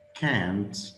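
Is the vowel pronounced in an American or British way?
American. The vowel is short and flat, American style. "It's not can't"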